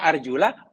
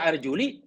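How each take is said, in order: First: The word ends with an 'a' vowel. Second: The word ends with an 'i' vowel. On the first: The feet must be washed. "Dibaca arjula, kaki kena dibasuh" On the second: The feet only need to be wiped. "Kalau baca arjuli, kaki hanya perlu disapu"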